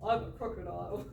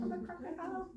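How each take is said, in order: First: Retry the crocodile, laughing. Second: High silly crocodile voice. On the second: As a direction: ham up a playful crocodile. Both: Acted. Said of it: "that wasn't a very good crocodile voice".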